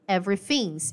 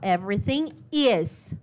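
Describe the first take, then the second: First: The verb is reduced and joined to the word. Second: The verb is said as a separate full word. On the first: "ele contraiu e virou everything's" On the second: "Ele poderia falar everything is"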